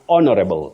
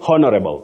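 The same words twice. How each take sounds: First: The initial H sound is silent. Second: The initial H sound is pronounced. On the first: The speaker calls it right. "the H is silent" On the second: The speaker calls it wrong. "don't say honorable"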